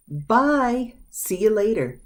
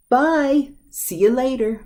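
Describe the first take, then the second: First: High bye, then see you later; cheerful goodbye. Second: High, louder bye, then see you later; cheerful goodbye. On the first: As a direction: wave someone off. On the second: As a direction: wave someone off brightly. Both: Shown as a demonstration. Teacher demonstrating a cheerful goodbye. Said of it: "These are both used".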